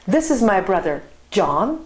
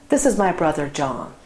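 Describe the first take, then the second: First: There is a pause before the name John. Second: There is no pause before the name John. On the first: The speaker is addressing a friend called John. "I am actually uh, introducing my brother to my friend John" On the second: The brother's name is John. "Brother John. This is my brother's name"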